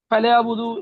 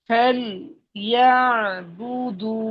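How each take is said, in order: First: The syllables are slurred together, dropping sounds. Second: Each syllable is pronounced clearly and separately. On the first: The speaker calls it wrong. "ফেলে বুদু এরকম বললে হবে না।" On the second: The speaker calls it right. "ভেঙ্গে ভেঙ্গে স্পেসিফিক ভাবে সুন্দরভাবে উচ্চারণ করে করে বলতে হবে।"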